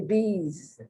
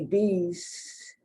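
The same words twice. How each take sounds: First: The word ends with a buzzing Z sound. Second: The word ends with a hissing S sound. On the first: The speaker calls it right. "you say bees. That S is pronounced like a Z" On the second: The speaker calls it wrong. "You don't say bees"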